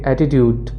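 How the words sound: It is said in an American English accent. "American accent में इसको कहेंगे"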